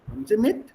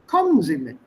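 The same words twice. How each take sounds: First: The pitch rises at the end. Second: The pitch falls at the end. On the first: It asks whether the listener will come along. "to make it a Fragesatz, you raise the tone at the end" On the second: It orders the listener to come along. "To make it an imperative, you then change the tone"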